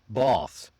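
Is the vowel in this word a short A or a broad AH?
broad AH. The vowel is a long, open AH sound. "the British English might sound a bit more like"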